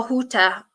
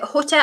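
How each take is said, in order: First: Hutter with a long "oo", like "hooter"; second pronunciation variant. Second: Hutter with a short first vowel; first pronunciation variant. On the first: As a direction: stretch the first vowel of Hutter into "oo". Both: Shown as a demonstration. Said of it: "is it Hutter or Hutter".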